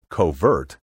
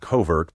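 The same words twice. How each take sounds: First: It uses a third pronunciation of covert. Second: It uses the newer pronunciation of covert, heard widely. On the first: This variant is often missing from dictionaries. "another popular variant, covert, is often not listed at all" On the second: This is the popular modern variant. "this variant has become so popular that several dictionaries now list it first"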